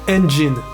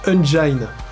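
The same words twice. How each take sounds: First: The word gets its standard, established pronunciation. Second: The word gets an invented English-sounding pronunciation. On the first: The speaker calls it right. "se prononce engine" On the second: The speaker calls it wrong. "une prononciation à l'anglaise qui n'existe pas"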